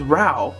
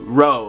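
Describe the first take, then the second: First: The name is said as 'Rao'. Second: The name is said as 'Row', rhyming with 'bow'. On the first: The speaker calls it wrong. "I did pronounce the name of the Kanohi wrong" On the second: The speaker calls it right. "But it's actually Row. R O W. Row. Like bow"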